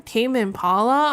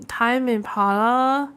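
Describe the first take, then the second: First: Tame said like taming an animal, rising; read as tame. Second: Impala read out slowly as time Impala; misread as time. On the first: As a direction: Impala asked with a questioning rise. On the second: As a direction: time with a long i, as in clock time. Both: Shown as a demonstration. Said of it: "I thought it's Tame Impala".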